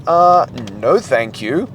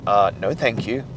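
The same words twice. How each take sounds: First: Body refusing, mock. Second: Low, dry polite refusal; the mind declining, muted; mind refusing. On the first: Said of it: "your body's gonna be like". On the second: Retold or imitated. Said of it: "your mind is gonna be like".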